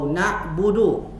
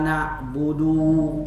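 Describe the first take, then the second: First: The final vowel is kept short. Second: The final vowel is drawn out long. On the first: The speaker calls it right. "Dibaca pendek" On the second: The speaker calls it wrong. "panjang itu"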